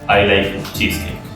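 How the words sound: It is said flatly and bluntly.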